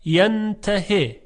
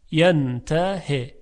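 First: ینتهی drawn out slowly, higher, with final long i; slow recited word. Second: ینتهی drawn out slowly with final long i; slow recited word. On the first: (ینتهی را آهسته و بلند بخوانید) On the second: (ینتهی را آهسته بخوانید) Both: Shown as a demonstration. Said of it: "کلمهٔ دیگر".

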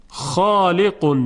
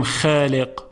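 First: خالق with the ا thick, full and drawn out slowly; heavy alif. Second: خالق with a thin, light, flat ا; thin wrong alif. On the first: Teacher giving the right, heavy خالق after the wrong one. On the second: Teacher showing the wrong, light خالق. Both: Shown as a demonstration.

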